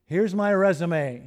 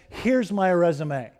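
First: Slow, with "my" weighted and falling; stress on my. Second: Slow, with "Here's" leaned on and falling; stress on here's. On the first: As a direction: press on "my", easing down slowly. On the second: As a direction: land on "Here's", then let it fall slowly. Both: Shown as a demonstration.

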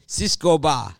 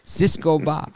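First: Mock Spanish street vendor calling out "Cisco ba"; heavy Spanish accent. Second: Put-on vendor's cry "Cisco ba" in a thick Spanish accent, higher and louder; imitating the kebab seller with a Spanish accent; heavy Spanish accent. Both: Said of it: "but with a heavy Spanish accent".

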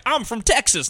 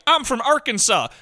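First: Mocking the actor's fake Southern accent. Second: Same pitched-up Southern parody; mocking an identical fake Southern accent. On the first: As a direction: ham up a bad Texas accent. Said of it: "he tries to do a Southern". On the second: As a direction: deliver a bad Arkansas accent. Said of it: "They sound the same".

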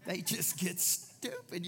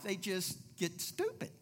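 First: They just get stupid said slowly, each word weighed; slow emphatic repeat. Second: Said in the usual way. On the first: Shown as a demonstration. Pastor repeating the line slowly for emphasis.

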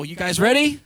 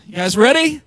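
First: Said in the usual way. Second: A rousing louder call to the room. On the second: Shown as a demonstration. Pastor rallying the congregation before a fast reading, louder. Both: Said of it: "I'm talking fast now".

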